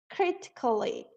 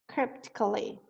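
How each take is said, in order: First: The word is said without a P sound. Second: The word is said with a P sound. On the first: The speaker calls it wrong. "Ela não fala esse P aqui, ela fala critically" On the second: The speaker calls it right. "a pronúncia correta é com o P"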